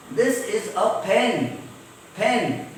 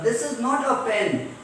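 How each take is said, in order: First: "pen" slowly, with a puff of air on the p; aspirated p. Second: "pen" with a flat p, no puff of air; unaspirated p. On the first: Teacher modelling the correct way, aspirated p. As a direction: let air burst out on the p of "pen". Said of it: "air comes out forcefully". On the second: Teacher showing the wrong way, unaspirated p. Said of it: "So pa becomes pa". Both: Shown as a demonstration.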